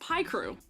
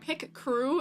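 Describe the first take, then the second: First: The first syllable sounds like 'pie'. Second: The first syllable sounds like 'pick'. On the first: This is an unusual, rebellious way to say it. "I am the one rebelling by calling it this, by calling it Pie Crew" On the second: This is the usual way to say it. "Pick crew is no problem"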